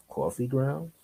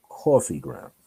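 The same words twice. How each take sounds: First: Soft "Coffee grounds" rising into a question; puzzled, hushed "Coffee grounds" with a final rise; questioning echo. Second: Low, soft "Coffee grounds" falling at the end; lowered "Coffee grounds", settled as a statement. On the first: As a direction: echo "Coffee grounds" quietly, pitch lifting at the end. Puzzled echo of her words. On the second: Same words as falling statement. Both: Retold or imitated.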